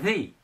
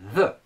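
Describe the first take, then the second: First: The vowel is a long 'ee'. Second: The vowel is a short, weak 'uh'. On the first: "l'adjectif où le nom commence donc par une voyelle. Ici, on dira the" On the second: "red commence par la lettre R, donc c'est un, une consonne, donc on dira the"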